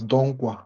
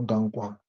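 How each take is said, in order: First: Donkwa with an open o, like Don-kwa; correct pronunciation. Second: Dankwa with a flat a, as in man; wrong pronunciation. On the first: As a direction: say Donkwa, first vowel as in on. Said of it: "not Dankwa". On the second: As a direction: say Dankwa, the mistaken a sound. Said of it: "it is Donkwa". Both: Shown as a demonstration.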